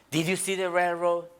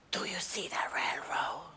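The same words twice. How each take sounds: First: Said in the usual way. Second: Hushed, secretive whisper. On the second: Acted. Brother whispers to sibling in the car, hushed secretive whisper. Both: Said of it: "Why are we whispering?".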